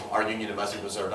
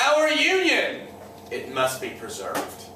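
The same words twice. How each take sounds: First: Fast, low, soft repeat; quick aside. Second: Jackson. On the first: Shown as a demonstration. Teacher repeats a quote for students, quick low aside. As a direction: rattle it off quietly as an aside. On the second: Retold or imitated. Jackson answers the states' rights toasts, slow solemn toast. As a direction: make a deliberate, weighty toast with a long pause. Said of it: "puts his glass in the air and he says".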